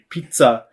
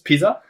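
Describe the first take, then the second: First: Pizza is pronounced with an Italian-style pronunciation. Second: Pizza is pronounced with the ordinary Japanese pronunciation. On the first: The dish is meant as authentic Italian pizza. "trying to lean hard on the Italian and it'll say" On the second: The dish is the familiar everyday pizza. "wait, wait, wait, isn't this pizza?"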